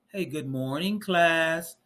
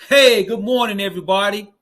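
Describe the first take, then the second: First: It is said with flat, low energy. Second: It is said with lively, high energy.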